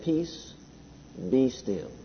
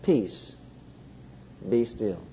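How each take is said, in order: First: Much softer, hushed calm command. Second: Much softer and lower, hushed and calm. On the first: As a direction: quietly still the storm. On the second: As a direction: say it like stilling a storm, gently. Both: A narrator's reading. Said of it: "very calmly says".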